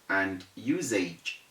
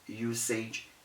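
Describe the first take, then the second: First: The s is sounded like z. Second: The s is sounded like s. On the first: The speaker calls it right. "The correct things to say are" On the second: The speaker calls it wrong. "usage is wrong"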